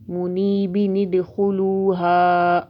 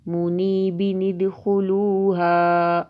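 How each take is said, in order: Both takes have the same delivery.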